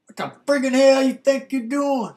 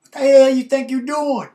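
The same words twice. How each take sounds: First: Loud high mock yell; angry boyfriend yelling; retold yell. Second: Loud, high angry shout; furious ex shouting down the hallway; retold yell. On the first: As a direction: shout it like an angry ex. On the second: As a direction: bellow it at the guy with his girl. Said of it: "he didn't say friggin'".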